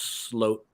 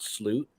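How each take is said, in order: First: The vowel is a long 'oh' sound. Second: The vowel is a long 'oo' sound. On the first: The speaker calls it right. "It's pronounced sloat" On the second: The speaker calls it wrong. "not sloot"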